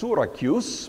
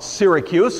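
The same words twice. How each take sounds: First: It sounds unlike the American city name. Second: It sounds like the American city name. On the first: "probably best pronounced Syracuse" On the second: "that's how we pronounce the American city of the same name"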